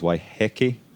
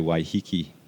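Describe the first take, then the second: First: The last syllables sound like heh-keh. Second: The last syllables sound like hee-kee. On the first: This is the traditional Maori pronunciation. "properly, the Maori, ... The Maori pronunciation is Waiheke" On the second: This is the common everyday pronunciation. "nine times out of ten, you'll hear people say Waihiki"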